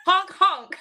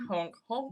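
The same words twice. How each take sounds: First: Laughing honk honk, higher; goose honk imitation. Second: Soft goose honk. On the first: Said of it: "will you give us a honk honk". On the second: Pretend. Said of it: "that's my, yeah, honk".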